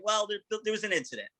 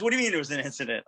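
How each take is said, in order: First: High, softened, stumbling admission; hesitant admission. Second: Rapid-fire imitated query; quick questioning. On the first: Retold or imitated. Telling Bill on the phone about the van, hesitant and high. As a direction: break bad news gingerly, voice raised. Breaking bad news to boss. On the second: Bill on the phone questions the news, quick and questioning. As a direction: fire the question straight back, fast. Boss reacts to bad news.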